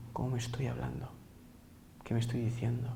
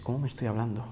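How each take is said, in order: First: Breathy whisper, turned inward. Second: Said in the usual way. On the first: Shown as a demonstration. Teacher whispers the question to listeners as inner voice. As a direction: ask it softly as if to yourself.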